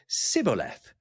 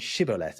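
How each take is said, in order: First: The word begins with an s sound. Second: The word begins with a sh sound. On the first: The speaker calls it wrong. "their version of the word was sibboleth" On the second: The speaker calls it right. "the sh in shibboleth"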